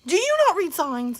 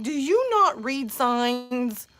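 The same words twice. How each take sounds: First: Mom's scolding. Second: Exasperated scold. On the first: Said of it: "my turn to turn into my mom". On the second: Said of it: "I'm like". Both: Retold or imitated.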